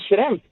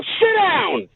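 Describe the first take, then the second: First: Said in the usual way. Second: High-pitched, drawn-out angry order, retold; retold raised voice. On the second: Customer orders the banker back into his seat, raised voice. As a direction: re-enact raising your voice at the banker. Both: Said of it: "no need to raise your voice".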